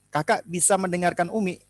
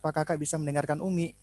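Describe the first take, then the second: First: It is spoken in a clear, normal voice. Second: It is spoken in a soft, quiet voice. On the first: "mulai dari suara yang jelas" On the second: "cuman suaranya pelan"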